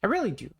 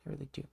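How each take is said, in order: First: Said in the usual way. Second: Very soft repeat of I really do; a quiet trailing echo; whispered echo. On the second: Real, not acted. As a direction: let I really do fade to a whisper.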